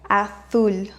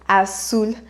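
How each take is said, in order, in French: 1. Le z se prononce comme en Espagne. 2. Le z se prononce comme un s net. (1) "Alors qu'en Espagne, on dirait azul" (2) "en Amérique latine, on prononce comme s'il y avait deux S"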